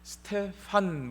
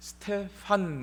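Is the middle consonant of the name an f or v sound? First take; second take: f; f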